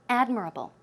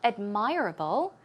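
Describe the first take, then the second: First: The stress is on the first syllable. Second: The stress is on the second syllable. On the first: The speaker calls it right. "The stress goes right there on the first syllable" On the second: The speaker calls it wrong. "not admirable"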